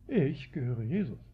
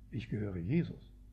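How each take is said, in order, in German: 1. Betont wird ich. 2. Betont wird Jesus, nicht ich. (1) "Du gehörst Paulus? Ich nicht" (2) "Man kann sagen"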